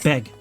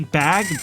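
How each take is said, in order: First: The vowel sounds like the one in 'beg'. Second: The vowel is the usual one in 'bag'.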